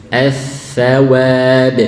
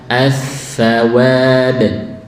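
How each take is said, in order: The two takes are said the same way.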